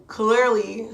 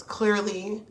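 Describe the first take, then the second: First: "Clearly" said much louder and rising; emphatic. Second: Said in the usual way. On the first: Real, not acted. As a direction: punch "Clearly" loud with a rising tune.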